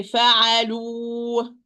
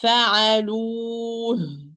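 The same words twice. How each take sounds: First: "فعلوه" ending on a long bare oo with no h; wrong demo, held vowel simply stops in "فعلوه"; final ha dropped. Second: "فعلوه" drawn out slowly, ending in an airy h; long held vowel, then breath for ه in "فعلوه"; audible final ha. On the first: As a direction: leave the last ه of "فعلوه" silent. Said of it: "I didn't hear the last voice". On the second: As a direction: make the last ه of "فعلوه" heard. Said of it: "I must hear the ha". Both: Shown as a demonstration.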